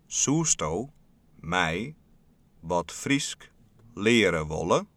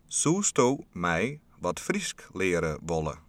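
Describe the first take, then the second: First: The sentence is spoken very slowly. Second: The sentence is spoken at a normal pace.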